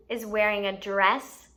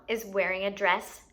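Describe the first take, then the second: No difference in how they are said.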